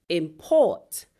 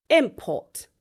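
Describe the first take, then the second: First: "import" as a verb, im-PORT; stress on second syllable. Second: "import" as a noun, IM-port; stress on first syllable. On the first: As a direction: hit the last syllable of "import". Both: Shown as a demonstration. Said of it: "nouns that can also be verbs".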